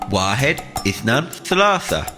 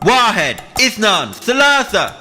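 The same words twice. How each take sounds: First: It is said at a medium, louder volume. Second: It is shouted as loud as possible. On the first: "Now a little bit louder" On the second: "Now let's shout it as loud as we possibly can"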